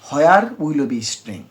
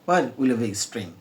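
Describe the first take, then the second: First: 'Where' begins with a breathy h-like sound. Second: 'Where' begins with a plain w sound. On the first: The speaker calls it wrong. "আমি কিন্তু প্রথম আসলে ইংরেজিটা ভুল উচ্চারণ করি" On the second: The speaker calls it right. "হোয়ার বলবে না, নেটিভরা ওয়ার বলবে।"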